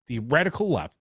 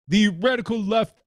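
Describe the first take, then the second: First: It is said in the speaker's own plain voice. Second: It is said in a put-on impersonated voice.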